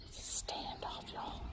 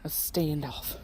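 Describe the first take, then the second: First: Very soft whisper to the viewers; hushed, voiceless narration. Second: Low, soft murmur; hushed low aside. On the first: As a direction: whisper it like a secret commentary. Whispers to viewers about animals' standoff. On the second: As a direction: comment quietly so as not to disturb. Watching animals face off. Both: Real, not acted.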